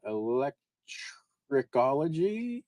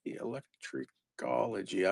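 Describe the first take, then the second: First: Slow, higher, drawn-out questioning read; puzzled sounding out. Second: Said in the usual way. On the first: Real, not acted. Seller decoding a buyer's name, slow puzzled question. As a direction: sound out the strange word like a question. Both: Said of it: "Let me, let me figure this out".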